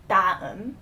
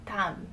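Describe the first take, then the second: First: 다음 with a hard, aggressive D; too-hard D. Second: 다음 with a soft D, nearly T. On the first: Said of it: "don't try to pronounce it too aggressively". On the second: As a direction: ease gently into the D of 다음. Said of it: "it's a much more softer D". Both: Shown as a demonstration.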